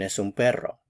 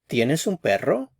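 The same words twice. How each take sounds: First: The voice falls at the end. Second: The voice rises at the end.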